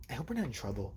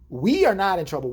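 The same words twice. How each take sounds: First: Low, hushed worry; quiet mock-sheepish murmur; imitated nervous friend. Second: "We" punched louder than the rest; firm retort leaning on "We"; stress on We. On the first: Imitates friend's worried confession. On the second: Retold or imitated. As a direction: hit "We" hard to disown the blame. Retorts, stressing who is not guilty.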